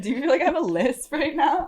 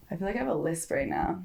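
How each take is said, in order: First: High, giggly question with a lisp; laughing with a lisp. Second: Speaking with a slight lisp. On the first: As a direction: laugh through it, lisping the s sounds. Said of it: "talking weird". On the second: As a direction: let the s sounds lisp softly. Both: Real, not acted.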